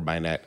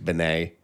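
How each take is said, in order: First: The name is pronounced a non-French, English way. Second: The name is pronounced the French way. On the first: The name's owner is not French. "If he's not, it's Binet or Binet" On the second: The name's owner is French. "If he's French, it's Binet"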